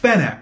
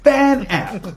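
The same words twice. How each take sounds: First: The word is pronounced short and clipped. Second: The word is pronounced long and drawn out. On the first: The speaker calls it right. "but it's FanApt" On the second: The speaker calls it wrong. "I'm pronouncing it long"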